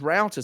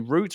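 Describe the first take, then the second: First: The word is said with an American pronunciation. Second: The word is said with a British pronunciation. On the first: "I only ever heard it as router" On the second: "when I first heard a British person say router"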